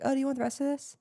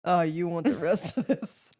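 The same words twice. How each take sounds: First: High, innocent offer; clueless offer. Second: Slow, knowing dig; pointed offer. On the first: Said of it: "clueless and was like". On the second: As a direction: offer it slowly with a hint of insult. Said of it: "he definitely was like". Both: Retold or imitated.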